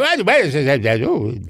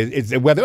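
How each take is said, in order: First: Pitched way up, trailing into mumbles; lightly voiced vague old star; high mumbled Tallulah. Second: Said in the usual way. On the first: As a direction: mumble like a foggy diva. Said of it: "couldn't quite make out what she was saying".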